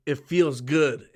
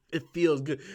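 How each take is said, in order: First: Slow, low quote of the actress's line. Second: Said in the usual way. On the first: Retold or imitated. Quoting her in a slow low voice. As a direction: savor it slowly like the character. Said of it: "And she's like".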